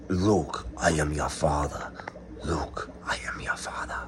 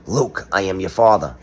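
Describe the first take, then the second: First: Whispered Vader quote. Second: Said in the usual way. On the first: Retold or imitated.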